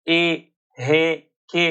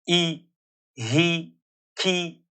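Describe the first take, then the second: First: The vowel is an open e sound. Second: The vowel leans toward a clear ee sound. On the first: The speaker calls it wrong. "इस तरह से नहीं पढ़ना है" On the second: The speaker calls it right. "या की तरफ माइल करके पढ़ना है"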